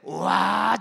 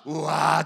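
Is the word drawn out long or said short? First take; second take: drawn out; short. First: It is drawn out long with feeling. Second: It is said short, without stretching.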